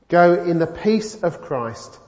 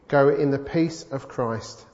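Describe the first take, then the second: First: It is said with more gusto and energy. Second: It is said with ordinary, modest energy.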